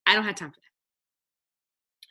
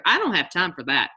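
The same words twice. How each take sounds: First: "I don't have time for that" drawn out slowly, as a put-on excuse; slow, exaggerated "I don't have time for that"; mock dismissive. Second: Said in the usual way. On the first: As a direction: slowly mimic someone brushing it off. Mocking excuses, said twice.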